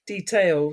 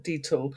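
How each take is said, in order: First: Detail with a full "tail" ending; careful detail. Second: Detail said quickly as "deetl"; swallowed detail. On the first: Correcting her own word, detail said fully as "dee-tail". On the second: Correcting her own word, detail said as "deetl". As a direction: clip detail down to two quick sounds, "deetl". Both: Shown as a demonstration. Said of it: "I should say, not detail".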